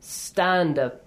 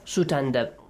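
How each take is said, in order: First: The s goes straight into the t. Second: An extra vowel comes between the s and the t. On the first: The speaker calls it right. "We can start with a silent letter. I mean without any vowel sound right after it" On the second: The speaker calls it wrong. "We don't have it"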